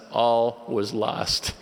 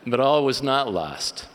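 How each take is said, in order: First: "All was lost" drawn out slowly and louder; mock despair. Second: "But all was not lost", louder and higher, falling at the end; emphatic reversal. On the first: Missionary telling of his language panic, in mock despair. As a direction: stretch "All was lost" into a weighty verdict. Deadpan punchline before audience laughs. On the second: Real, not acted. Speaker turning his joke around, in emphatic reversal.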